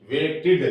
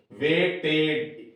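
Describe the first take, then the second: First: वेटेड said quickly, ending in a short इड; right way demo. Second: वेटेड drawn out slowly with a plain एड ending; wrong way demo. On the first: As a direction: say वेटेड as वेट plus इड. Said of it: "वेट plus इड". (सही उच्चारण वेटेड, अंत में इड) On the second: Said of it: "वेटेड नहीं बोलेगा ये". (गलत उच्चारण वेटेड, धीरे खींचकर) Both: Shown as a demonstration.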